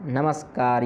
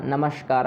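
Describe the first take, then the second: First: नमस्कार with a plain dental s before का. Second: नमस्कार said with sh in place of s; retroflex sh. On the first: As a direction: say नमस्कार with a clear s, no sh. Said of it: "यहाँ पर मूर्धन्य शकार नहीं होगा". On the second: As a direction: say नमस्कार as namashkar. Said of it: "यहाँ मूर्धन्य शकार होना चाहिए पर नहीं हुआ". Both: Shown as a demonstration.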